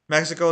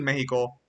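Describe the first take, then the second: First: The word is pronounced the English way. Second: The word is pronounced the Spanish way. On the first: "if you're saying it like English" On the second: "it's technically Mexico"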